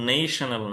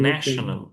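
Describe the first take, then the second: First: The first vowel is the long 'ay' sound. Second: The first vowel is the short 'a' sound. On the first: The speaker calls it wrong. "এখানে কিন্তু নেশনাল না" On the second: The speaker calls it right. "এটা শব্দের চেঞ্জের কারণে stress বা ভল change হয়ে যাচ্ছে"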